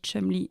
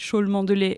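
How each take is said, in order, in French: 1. Le nom est réduit à deux syllabes courtes. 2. Le nom se prononce syllabe par syllabe. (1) "ça se dit Chumley" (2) "ça s'écrit Chaulmont-de-Lait"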